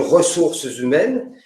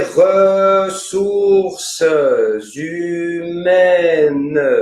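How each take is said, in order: First: The vowels are short, at normal speed. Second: Each vowel is held long and slow.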